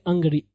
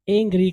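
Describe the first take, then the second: First: 'Angry' opening on an uh sound, 'ung-gree'; correct pronunciation. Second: 'angry' opening on an ay sound, 'eng-gree'; wrong pronunciation. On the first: Teacher telling students how to read it, 'Angry' as 'ung-gree'. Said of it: "इसको हम क्या पढ़ेंगे?". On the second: Teacher showing what we won't say, 'angry' as 'eng-gree'. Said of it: "हम नहीं करेंगे". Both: Shown as a demonstration.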